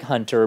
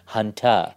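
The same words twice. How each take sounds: First: The name is said in a standard accent. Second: The name is said in a Boston accent. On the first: "It's like Hunter" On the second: "but pronounced with a Boston accent"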